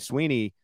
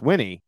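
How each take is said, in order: First: The first vowel is a long 'ee' sound. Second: The first vowel is a short 'ih' sound. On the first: The speaker calls it wrong. "a lot of people say Sweeney" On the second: The speaker calls it right. "It's Swinney"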